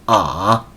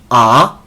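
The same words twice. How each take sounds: First: It is said in the third tone, dipping. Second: It is said in the second tone, rising.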